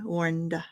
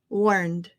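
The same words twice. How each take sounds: First: The final D is followed by an extra uh. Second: The final D stops cleanly with no added vowel. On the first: The speaker calls it wrong. "instead of saying" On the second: The speaker calls it right. "Make the D and then stop the air"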